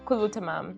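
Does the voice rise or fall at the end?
falls. The voice falls at the end, like an answer.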